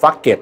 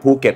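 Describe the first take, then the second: First: The word begins with an f sound. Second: The word begins with an aspirated p sound. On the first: The speaker calls it wrong. "ฝรั่งบางคนก็เลยออกเสียงนะฮะ" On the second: The speaker calls it right. "จังหวัดภูเก็ต"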